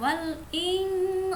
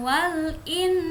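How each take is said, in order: First: The n is pronounced with a prolonged nasal hum. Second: The n is pronounced clearly without a nasal hum. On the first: The speaker calls it right. "Samar itu maksudnya agak didengungkan" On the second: The speaker calls it wrong. "bukan wal in"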